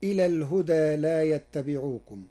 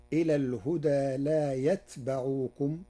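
First: يتبعوكم as "yattabi'ukum"; Hafs reading. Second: يتبعوكم as "yatba'ukum", silent ta, open ba; Warsh reading. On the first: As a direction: stress يتبعوكم with doubled ta. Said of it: "قرأ ورش كلمة يتبعوكم". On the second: Sheikh showing Warsh's يتبعوكم to listeners. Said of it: "بسكون التاء وفتح الباء". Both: Shown as a demonstration.

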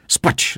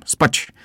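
First: Said in the usual way. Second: "spać!" repeated, pitched much higher; calling out. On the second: A narrator's reading. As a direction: call "spać!" up high, insisting. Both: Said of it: "zawołałem".

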